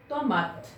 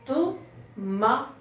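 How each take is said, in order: First: Said in the usual way. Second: TOMATE as TO, MA, TE with pauses; syllable by syllable. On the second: Shown as a demonstration. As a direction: sound out Tomate in three beats, voicing the final te. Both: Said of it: "il y a trois syllabes".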